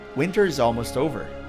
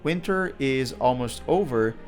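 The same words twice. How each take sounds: First: Consonants run smoothly into the following vowels. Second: Each word is said separately, with small breaks. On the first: "we hear him say" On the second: "pronouncing the words separately"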